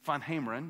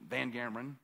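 First: The name is said with a Dutch pronunciation. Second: The name is said with an American pronunciation. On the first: The speaker calls it right. "He was Dutch, so Van Hameren, that's the way you're supposed to pronounce it" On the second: The speaker calls it wrong. "We called him, you know, us Alabama students"

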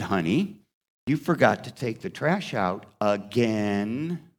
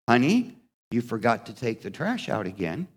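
First: It is said with irritation, twisting again. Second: It is said in a neutral tone.

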